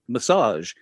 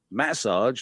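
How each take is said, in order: First: The word is said with a non-British pronunciation. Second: The word is said with a British pronunciation. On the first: "not massage" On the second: "in the UK we say massage"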